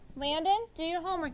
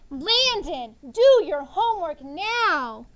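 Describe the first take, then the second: First: It is said calmly and kindly. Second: It is said loudly and excitedly.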